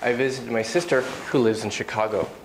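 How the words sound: There is a clear pause before "who". "with a comma, of course I read with a bit more of a pause there"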